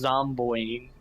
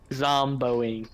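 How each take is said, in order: First: "Zomboing" said the robotic TTS way, mangled; TTS mispronunciation. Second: "Zomboing" said the proper way, plainly; correct pronunciation. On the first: Retold or imitated. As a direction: mimic the text-to-speech saying "Zomboing". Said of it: "the T T S goes Zomboing". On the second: Shown as a demonstration. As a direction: give the right version of "Zomboing". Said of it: "not Zomboing".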